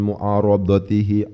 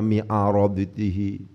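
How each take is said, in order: First: The first vowel is a 'u' sound. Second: The first vowel is an 'i' sound. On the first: The speaker calls it right. "Jadi harus berwazan baca itu" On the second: The speaker calls it wrong. "Gak boleh macam misalnya"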